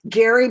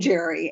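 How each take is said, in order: First: It begins with a hard G sound. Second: It begins with a soft G sound. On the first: "the term gerrymandering with the hard G" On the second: "softening the G"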